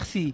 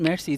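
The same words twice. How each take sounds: First: It is pronounced with French-style sounds. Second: It is pronounced with English-style sounds. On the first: The speaker calls it right. "it's merci" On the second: The speaker calls it wrong. "in English, people think it's merci, but it's not merci"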